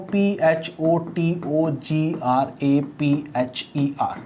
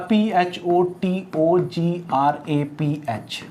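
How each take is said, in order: First: Slow, letter-by-letter spelling of the longer word. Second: Slow, letter-by-letter spelling. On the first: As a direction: spell each letter slowly to the end. (अक्षर-अक्षर धीरे-धीरे spelling) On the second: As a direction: spell each letter out slowly. (अक्षर-अक्षर धीरे-धीरे बोलना) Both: Shown as a demonstration. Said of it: "जैसे मैं आपसे कहूँ".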